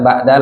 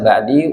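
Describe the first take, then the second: First: The word ends in an a vowel. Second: The word ends in an i vowel. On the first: The speaker calls it right. "kita katakan ba'da" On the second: The speaker calls it wrong. "laisa ba'di"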